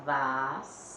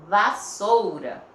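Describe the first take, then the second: First: "vassoura" with a long held S, then pauses; split into syllables. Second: "Vassoura" slow and loud; slow word demonstration. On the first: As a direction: break "vassoura" apart as vas, sou, ra. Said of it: "Então, vai ficar". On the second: Teacher presenting the next word to pupils, slow and emphatic. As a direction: announce "Vassoura" slowly and firmly. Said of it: "Separou a sílaba". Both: Shown as a demonstration.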